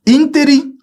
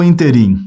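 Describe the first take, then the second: First: Ínterim high and long on ÍN; first-syllable stress. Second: Interim stressed on the final RIM; last-syllable stress. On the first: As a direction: stretch the start of Ínterim. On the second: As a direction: land on the end of interim. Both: Shown as a demonstration. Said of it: "a pronúncia é ínterim e não interim".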